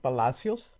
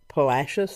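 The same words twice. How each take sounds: First: The name is pronounced the Spanish way. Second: The name is pronounced the English way. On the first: This is the speaker's preferred way. "I prefer to pronounce Spanish names in Spanish" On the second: This is how most people say it. "people pronounce it Palacios"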